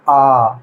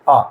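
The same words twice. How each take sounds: First: The vowel is held about twice as long. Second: The vowel is held briefly. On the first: "दीर्घ में जाएंगे द्विमात्रिक में ... दो गुना समय लगा" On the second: "एक मात्रिक"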